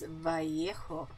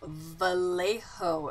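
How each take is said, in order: First: The double L is said as a Y sound. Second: The double L is said as an L sound. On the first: The speaker calls it right. "It's double L's, which is a Y" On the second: The speaker calls it wrong. "they're calling it Vallejo"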